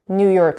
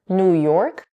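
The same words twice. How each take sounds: First: The stress falls on New. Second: The stress falls on York.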